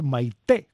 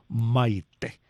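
First: The stress is on the second syllable. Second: The stress is on the first syllable.

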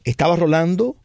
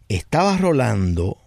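First: The pitch rises on Rolando, like a list comma. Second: The pitch stays level and trails off on Rolando. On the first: It simply starts a list of names. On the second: There is a hidden intention about this person.

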